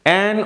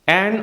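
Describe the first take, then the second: Both takes have the same delivery.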